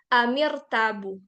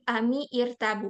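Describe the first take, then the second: First: The words join and the i vowel drops. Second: The words stay apart and the i vowel sounds. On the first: The speaker calls it right. "tapi jadi amirtabu" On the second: The speaker calls it wrong. "bukan amir ami irtabu, enggak"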